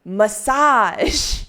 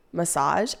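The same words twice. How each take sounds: First: Loud, high, drawn-out MASSAGE; MASSAGE stretched long with a raised, emphatic voice; grandly proclaimed. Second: Said in the usual way. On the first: Pretend. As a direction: announce MASSAGE like a brand-new name, stretching it out. Proclaims it as a good name.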